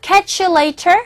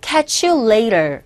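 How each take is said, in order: First: "later" with a crisp British t, higher; British "catch you later", crisp t; a hint of British English; British accent. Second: American "catch you later", t softened; flapped American "later". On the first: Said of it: "영국식 발음은 later". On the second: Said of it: "영어 발음은". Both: Shown as a demonstration.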